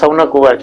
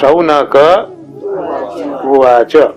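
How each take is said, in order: First: The final k is said without its vowel. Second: The final ka is said with its full vowel. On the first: The speaker calls it wrong. "એટલે ત્યાં ક આપણે ખોડો બોલીએ છીએ" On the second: The speaker calls it right. "આવી રીતે એને બોલાય"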